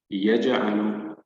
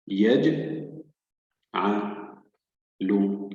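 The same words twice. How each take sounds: First: Said in the usual way. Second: "يج-، ع-، ل-" in three pieces with pauses; syllable by syllable. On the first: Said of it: "سنعيد قراءة الكلمة بشكل كامل". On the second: Shown as a demonstration. Teacher reads the next word for learners, split syllables. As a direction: sound out "يج-", then "ع-", then "ل-". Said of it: "الحرف الساكن يقرأ مع الحرف السابق".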